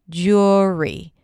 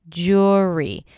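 Both takes have the same delivery.

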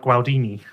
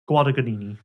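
First: The middle G sound is left out. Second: The middle G sound is clearly pronounced. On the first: The speaker calls it wrong. "originally you just said it was like Gualdini" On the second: The speaker calls it right. "There's another G in the middle"

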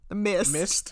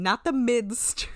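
First: The d sound in the word is dropped. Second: The d sound in the word is pronounced. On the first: This imitates how someone else said it. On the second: This is the usual pronunciation.

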